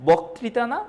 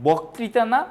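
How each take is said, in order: Both takes have the same delivery.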